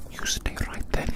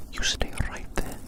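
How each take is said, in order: Both takes have the same delivery.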